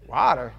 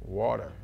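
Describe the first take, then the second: First: "Water" as a baffled question, open "wah" vowel, pitch jumping up; puzzled WATER. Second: "Water" said low as a plain statement, rounded "waw" vowel; his own WATER. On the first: Puzzled server repeats the word. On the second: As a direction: repeat "Water" low and even, as your order. Ordering water, not being understood. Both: Retold or imitated.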